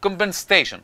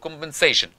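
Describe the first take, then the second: First: Compensation said one way; first take of compensation, one stress pattern; compensation, first variant; first pronunciation. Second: Compensation said the other way; second take of compensation, stress moved; compensation, alternative variant; second pronunciation. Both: Shown as a demonstration. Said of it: "compensation أو compensation".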